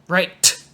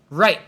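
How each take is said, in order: First: The final T is released with a puff of air. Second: The final T is stopped with no air released. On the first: The speaker calls it wrong. "You don't need to say right. Don't do that" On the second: The speaker calls it right. "close the air really fast, people know there's a T"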